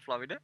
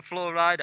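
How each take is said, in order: First: Said in the usual way. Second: "Flow Rida" as two words, flow RIDE-a; "Flow Rida" rhyming its second word with rider. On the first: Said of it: "I didn't know it spelled Florida". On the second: Shown as a demonstration. Contrasts misread name with Florida.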